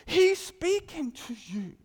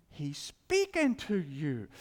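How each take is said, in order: First: Loud, high, slow declaration; jumping-out proclamation. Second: SPEAKING stretched slowly in a lower pitch; bold-print emphasis. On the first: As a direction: proclaim it so the spirit jumps. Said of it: "your spirit just jumps". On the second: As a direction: weigh out "speaking to you" slowly and deliberately, low. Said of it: "kinda comes off in bold print". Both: Shown as a demonstration.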